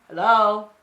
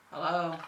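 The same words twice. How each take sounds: First: Loud sing-song hello. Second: Said in the usual way. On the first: Real, not acted. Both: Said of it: "greeting viewers playfully".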